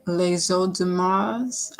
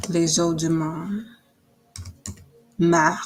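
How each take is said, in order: First: Slow, hesitant French "les eaux de mars" with a rising end; tentative French "les eaux de mars"; French title. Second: Slow French "les eaux de mar", then "mar" repeated alone; hesitant French "les eaux de mar"; French accent attempt. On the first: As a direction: try "les eaux de mars" in French, unsure, lifting the last word. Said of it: "I'm probably saying this wrong". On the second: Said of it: "with a French accent". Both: Shown as a demonstration.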